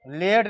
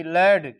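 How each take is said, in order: First: लेड with closed 'ay', like laid; wrong reading of lad. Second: लेड with open 'ae', like lad; correct reading of lad. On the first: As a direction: say लेड to rhyme with made. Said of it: "लेड नहीं पढ़ेंगे". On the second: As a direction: say लेड to rhyme with bad. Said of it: "L A D". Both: Shown as a demonstration.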